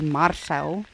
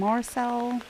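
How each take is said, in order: First: The name is said with an Afrikaans pronunciation. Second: The name is said with an American pronunciation. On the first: "say it like we do Marcel, which is the Afrikaans pronunciation" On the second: "And they just kept saying Marcel"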